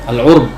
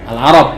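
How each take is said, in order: First: The first vowel is 'u', with one syllable. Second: The first vowel is 'a', with two syllables. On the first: "bisa juga dibaca al-urb"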